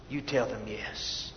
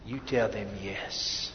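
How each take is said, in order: First: Soft, low repetition; hushed echo of the urging; soft repeated yes. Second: Low, soft and slow; quiet earnest urging; soft slow yes. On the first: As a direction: repeat it gently for weight. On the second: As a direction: lean in and say it gently. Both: Real, not acted.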